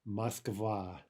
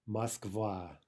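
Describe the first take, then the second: No difference in how they are said.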